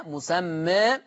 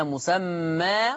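First: مسمى with the final "aa" tilted toward "ee"; slightly fronted last vowel on مسمى; taqlil. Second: مسمى ending in a full open "aa"; long open last vowel on مسمى; open fath. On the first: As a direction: say مسمى as "musammae". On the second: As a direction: say مسمى as "musammaa". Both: Shown as a demonstration. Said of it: "أي فيه الفتح والتقليل".

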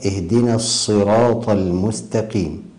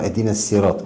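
First: الصراط with a full, emphatic ṣ; correct heavy ṣād. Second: الصراط with a light s instead of heavy ṣ; thinned ṣād. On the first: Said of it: "الصاد من حروف التفخيم". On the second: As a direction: say الصراط with a thin sīn sound. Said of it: "ترقيق الصاد إلى سين". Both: Shown as a demonstration.

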